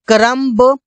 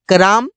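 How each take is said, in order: First: A b sound is pronounced after the m. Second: No b sound is heard after the m. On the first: The speaker calls it wrong. "यहाँ पर लिखा हुआ है क्रम्ब" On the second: The speaker calls it right. "लेकिन इसे बोलते हैं क्रम"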